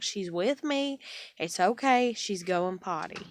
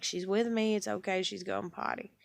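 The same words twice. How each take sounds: First: Hollering reassurance. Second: Said in the usual way. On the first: Retold or imitated. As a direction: call back so she can hear you. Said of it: "I holler at her". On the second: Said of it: "I'm like".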